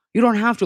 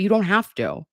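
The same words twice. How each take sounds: First: "don't" pushed higher and louder; insist, leaning on "don't"; more insistent. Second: Said in the usual way. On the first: Real, not acted. Reassuring a returning member, leaning harder on "don't". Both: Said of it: "repeat for emphasis".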